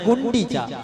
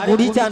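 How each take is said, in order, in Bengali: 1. 'Gundicha' নামটি n ধ্বনি সহ উচ্চারিত হয়। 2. 'Gundicha' নামটি n ধ্বনি ছাড়া উচ্চারিত হয়।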